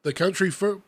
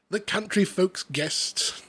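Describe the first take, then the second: First: Said in the usual way. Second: Slow, lightly put-on Hugh Grant reading. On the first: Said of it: "You're either doing the voice or you're not". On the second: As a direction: read it slowly as a mild Hugh Grant. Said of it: "now I'm Hugh Grant".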